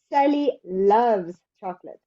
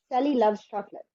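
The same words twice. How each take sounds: First: "loves" held and hit harder than the rest; stress on loves. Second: Said in the usual way. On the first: Shown as a demonstration. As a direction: lean on "loves", keep Sally and chocolate light. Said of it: "The stress is on love". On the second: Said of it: "instead of just saying".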